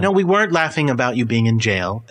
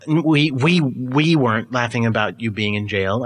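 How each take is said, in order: First: Said in the usual way. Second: "we" repeated and leaned on, then a slow finish; stress on we. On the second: Acted. Host denies laughing to the returned co-host, stressing "we". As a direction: lean hard on "we", implying others may have.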